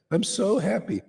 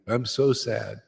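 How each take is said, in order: First: Higher, giddy "I'm so happy"; mock giddy joy. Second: Plain, droopy "I'm so sad"; mock gloom. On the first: Preacher mocking drunk mood swings, giddy voice. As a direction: swing up into silly delight on "happy". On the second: Preacher mocking drunk mood swings, mock gloomy voice. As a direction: drop flat into mock sorrow on "sad". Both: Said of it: "and the next day".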